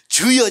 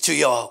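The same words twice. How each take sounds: First: It is said loudly. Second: It is said quietly, as to a neighbor.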